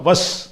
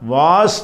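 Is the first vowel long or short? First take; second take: short; long. First: The first vowel is kept short. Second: The first vowel is held long. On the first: The speaker calls it right. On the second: The speaker calls it wrong. "வாஸ் என்று சொல்லாமல்"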